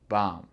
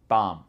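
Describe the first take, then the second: First: The word ends on the m sound. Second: The word ends on the m sound.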